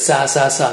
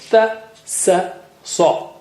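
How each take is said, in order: First: All three syllables start with the same sound. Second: Each of the three syllables starts differently. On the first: The speaker calls it wrong. "they just say it the same way for the three letters" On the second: The speaker calls it right. "three have distinctly different articulations"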